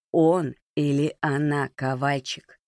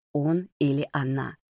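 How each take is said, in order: First: Stretched-out, pressing question; slow insistent repeat. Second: Said in the usual way. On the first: A narrator's reading. Володя repeating the question to Ковальчик, slow and pressing. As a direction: repeat it slowly, word by word.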